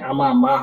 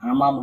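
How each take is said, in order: First: The word ends with an open final vowel. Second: The word ends on a closing consonant. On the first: The speaker calls it right. "এটা হচ্ছে আমামা হবে" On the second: The speaker calls it wrong. "আমাম হবে না"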